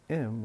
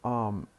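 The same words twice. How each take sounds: First: "im" with a short reduced vowel; brief, closed "im" for am; weak form. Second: "am" with a full open vowel; stressed, clearly open "am"; strong form. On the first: Teacher showing what we don't say, weak form. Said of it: "We don't say". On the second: Teacher showing what we say before not, strong form. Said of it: "it has to be the strong form". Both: Shown as a demonstration.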